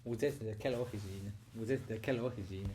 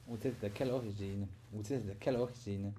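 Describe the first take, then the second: No difference in how they are said.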